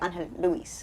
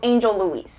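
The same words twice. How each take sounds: First: The name is said with Spanish sounds. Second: The name is said with English sounds. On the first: This is the original correct version. "if you're going to pronounce it right, you got to say" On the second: This is the simplified everyday version. "So Angel Luis, basically"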